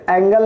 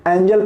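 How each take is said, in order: First: एंगल with a hard "g" in the middle; misreading with hard g. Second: एंजल with a "j" sound in the middle; reading with soft g. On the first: Teacher shows students the misreading of angel, hard g in एंगल. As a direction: say एंगल as in the maths angle. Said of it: "आप इसे एंगल नहीं पढ़ेंगे". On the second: Teacher shows students how angel is read, j sound in एंजल. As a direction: say एंजल, soft g like English "jel". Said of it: "एंजल पढ़ेंगे". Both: Shown as a demonstration.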